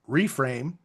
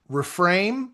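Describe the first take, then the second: First: Reframe said as REE-frame, long ee; stress on first syllable. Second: Reframe said as ri-FRAME, short first vowel; stress on second syllable. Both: Shown as a demonstration. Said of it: "however you wanna emphasize the syllable".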